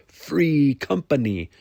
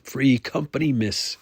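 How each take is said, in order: First: "Free company" slow, higher, each word stressed; each word emphasized. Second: "Free company, miss" raised and insistent; firm correction. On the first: Brune repeats it to correct Vagelin, "Free company" word by word. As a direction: lean hard on "Free", then on "company". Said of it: "emphasizing each word". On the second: Brune corrects Vagelin's word master, firm "Free company". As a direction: correct her on "Free company", without drawing it out. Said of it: "he repeated". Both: A narrator's reading.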